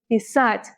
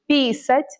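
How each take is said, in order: First: The stress is on the last syllable. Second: The stress is on the first syllable. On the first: It means to write. The speaker calls it right. "The stress is on the last syllable" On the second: It changes the meaning to a different verb. The speaker calls it wrong. "if you put it on the first one"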